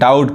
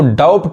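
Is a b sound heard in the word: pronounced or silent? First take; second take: silent; pronounced. First: The b sound is silent before the t. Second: The b sound is pronounced before the t. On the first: The speaker calls it right. "डाउट पढ़ते हैं" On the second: The speaker calls it wrong. "इसको डाउट नहीं कहेंगे"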